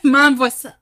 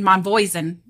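First: The last syllable is barely pronounced. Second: The last syllable is fully pronounced. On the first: The speaker calls it right. "So that last syllable just, yeah. it's not there" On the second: The speaker calls it wrong. "that's not right"

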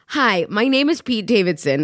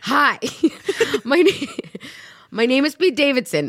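First: It is read in a plain, neutral tone. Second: It is read in an angrier tone.

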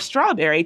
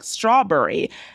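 First: The vowel before the R sounds standard. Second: The vowel before the R sounds centralized. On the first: "strawberry to be pronounced like" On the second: "pronounced like strawberry"

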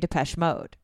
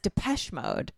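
First: The stress is on Mode. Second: The stress is on Depeche.

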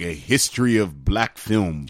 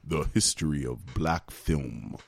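First: It is said in a normal speaking voice. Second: It is said in a put-on deep voice.

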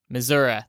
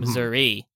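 First: It uses the local Missouri pronunciation of the name. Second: It uses an outsider's pronunciation of the name. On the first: This is how people living there say it. "That's what they pronounce it there" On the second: This is how the speaker personally says it. "That's how I pronounce it"

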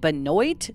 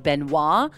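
First: The name is pronounced an anglicized way. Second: The name is pronounced the French way. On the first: "they pronounced it" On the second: "the French way to pronounce Katie's last name is"

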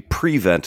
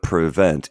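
First: The stress is on the first syllable. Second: The stress is on the second syllable. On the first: This is the football usage. "Only in football do we say prevent" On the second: This is the everyday usage. "instead of prevent"

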